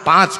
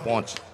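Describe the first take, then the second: First: It is said with an open 'aa' vowel. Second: It is said with a nasal 'o' vowel. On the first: This is the standard Gujarati form. "શિષ્ટ Gujarati ભાષામાં આને પાંચ કહીએ" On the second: This is the North Gujarat rural dialect form. "ઉત્તર ગુજરાતમાં અર્જુનભાઈ એને પોંચ કે"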